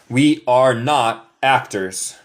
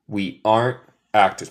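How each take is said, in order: First: The words are and not are said separately. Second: Are and not merge into one contracted word. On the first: It is the formal way to say it. "La forma larga, la forma formal" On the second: It is a quicker way that native speakers usually choose. "Aren't es una contracción, un mezclado de are not"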